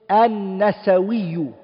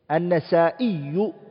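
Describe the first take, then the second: First: A w sound comes before the ending. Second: A glottal stop comes before the ending. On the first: This is a less common, recorded form of the name. "There's another way of saying it, which is An-Nasawiyu" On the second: This is the most common form of the name. "the one that we all know, is saying An-Nasa'iyu"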